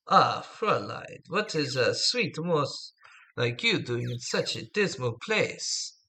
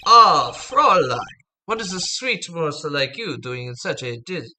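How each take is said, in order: First: Attempted German accent. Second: Put-on a loose try at a suave German accent; attempted German accent. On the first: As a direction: croon it slowly in a rough German accent. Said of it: "I can't do a good German accent". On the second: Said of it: "So he's German. I can't do good German".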